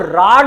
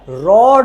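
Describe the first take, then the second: First: The vowel is an open, unrounded 'aa' sound. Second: The vowel is a rounded 'aw' sound. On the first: The speaker calls it wrong. "गांव में बोलते राड ... तो राड नहीं होता है" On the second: The speaker calls it right. "रॉड होता है"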